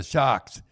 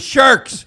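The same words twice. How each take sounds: First: "sharks" with no R, like "shocks"; dropped R. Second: "sharks" with its R fully sounded, high and loud; R pronounced. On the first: Retold or imitated. Son telling what he learned today, "sharks" without its R. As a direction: say "sharks" the Boston way, as "shahks". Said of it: "They do drop their R's". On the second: Shown as a demonstration. Parent revealing what he really meant, "sharks" with a clear R. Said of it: "he's learning about cars and that".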